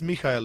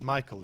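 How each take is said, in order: First: The name is said as Mikhail. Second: The name is said as Michael. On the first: "I know it's Mikhail" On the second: "It just makes sense to pronounce it Michael"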